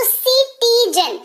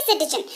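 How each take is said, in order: First: सिटीजन said higher, s sound at the start; teacher models सिटीजन for the class; pronunciation demo. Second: सिटीजन said with a clear s sound, laughing lightly; pronunciation demo. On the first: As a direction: sing out सिटीजन with a crisp s. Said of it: "स के तौर पर उच्चारण हो रहा है". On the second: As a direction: model सिटीजन with a soft s at the start. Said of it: "सिटीजन इसको पढ़ते हैं". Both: Shown as a demonstration.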